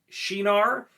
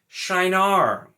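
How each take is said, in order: First: The first syllable sounds like 'she'. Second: The first syllable sounds like 'shy'. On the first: The speaker calls it right. "I've always said Shinar" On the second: The speaker calls it wrong. "I hate the way that sounds"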